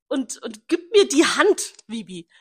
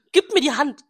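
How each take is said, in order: First: Slow, raised mock of his words; imitating him. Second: Louder, higher mock quote; imitating him. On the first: Retelling his goodbye, she drags out his words mockingly. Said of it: "retells his goodbye". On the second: Repeating his line to her friend, she hams it up. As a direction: hams up his request, stressing mir. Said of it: "repeats his line".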